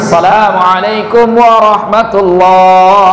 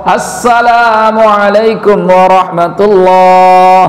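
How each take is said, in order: Both takes have the same delivery.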